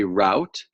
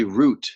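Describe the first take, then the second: First: Route said to rhyme with out; route pronounced rowt. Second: Route said to rhyme with boot; route pronounced root. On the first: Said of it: "most people say route". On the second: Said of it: "Some people say route". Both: Shown as a demonstration.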